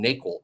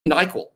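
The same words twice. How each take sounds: First: It sounds different from the medicine's name. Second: It sounds just like the medicine's name. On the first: The speaker calls it wrong. "I've been saying NyQuil" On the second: The speaker calls it right. "It's actually NyQuil, just like the, the medicine"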